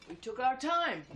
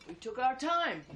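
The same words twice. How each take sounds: Both takes have the same delivery.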